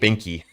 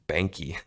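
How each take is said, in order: First: The first vowel sounds like the one in 'bink'. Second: The first vowel sounds like the one in 'bank'. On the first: This is how friends from Alabama say it. The speaker calls it wrong. "They pronounce it Bink, Binky" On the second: This is how the name is really said. The speaker calls it right. "no, it's Banky"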